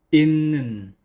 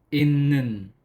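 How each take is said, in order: First: The first syllable ends in an n sound. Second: The same.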